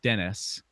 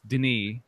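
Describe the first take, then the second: First: The name ends with an S sound. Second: The name ends without an S sound. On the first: The speaker calls it wrong. "not Dennis" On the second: The speaker calls it right. "I know it's Denis, Don't pronounce the S"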